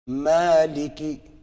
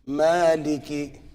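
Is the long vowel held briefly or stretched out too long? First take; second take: brief; brief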